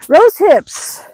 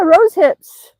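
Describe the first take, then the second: First: Whispered. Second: Said out loud, higher and louder; excited. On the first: Vlogger pointing out berries to viewers, whispered. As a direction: whisper the words like sharing a find. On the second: Vlogger showing rose hips to viewers, excited aloud. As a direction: announce the berries with delight. Pointing out berries on a walk. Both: Real, not acted.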